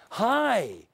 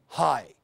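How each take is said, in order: First: High, drawn-out HI; bright greeting. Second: Low, short HI; contrasting low greeting. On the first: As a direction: stretch HI out on a high, falling tune. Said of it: "how the word sounds". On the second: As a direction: drop HI low and keep it brief. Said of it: "that's different from". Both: Shown as a demonstration.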